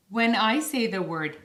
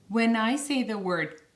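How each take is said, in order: Both takes have the same delivery.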